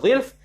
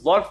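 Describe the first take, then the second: First: The first vowel is an 'i' sound. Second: The first vowel is not an 'i' sound. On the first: The speaker calls it right. "bikasri dha'i, dengan dikasrah di baris bawahkan dha" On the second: The speaker calls it wrong. "bukan dhalf"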